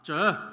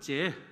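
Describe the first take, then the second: First: The first consonant is said with a curled tongue. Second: The first consonant is said with a flat tongue. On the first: "你要抄舌了。我说好" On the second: "那广东人就结"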